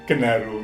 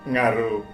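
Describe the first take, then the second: First: It starts with a separate 'ge' syllable. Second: It starts directly with an 'ng' sound. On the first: It follows the written form of the word. The speaker calls it wrong. "yang betul bukan genaru" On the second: It follows how people actually say it. The speaker calls it right. "yang betul adalah ngaru"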